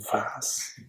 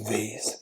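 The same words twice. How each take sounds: First: It is said with a British pronunciation. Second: It is said with an American pronunciation.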